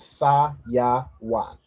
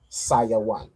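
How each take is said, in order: First: The syllables are said apart with pauses. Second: The syllables are said together without pauses. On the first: "if we split this into parts" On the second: "the way you put it together"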